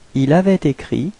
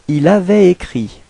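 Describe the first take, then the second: First: Avait and écrit are joined with a linking t. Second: Avait and écrit are said without a linking t.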